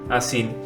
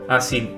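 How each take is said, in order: Both takes have the same delivery.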